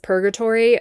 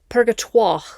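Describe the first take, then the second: First: The name is said like the English word purgatory. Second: The name is said with a French-style ending. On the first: "it probably is pronounced purgatory" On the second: "I've been pronouncing it Purgatoire because that's fun"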